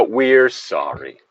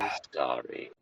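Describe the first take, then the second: First: Slow, drawn-out mock corporate sorry; mock corporate apology. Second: Breathy mock corporate apology, much softer and lower; a hammed-up insincere sorry. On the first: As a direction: say it slowly like a company apologising.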